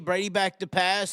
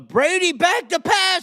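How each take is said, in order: First: It is said calmly at a normal volume. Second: It is said loudly with excited energy. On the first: The announcer saves excitement for real action. "They they say" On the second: The announcer fakes excitement over a routine play. "You don't hear him getting excited"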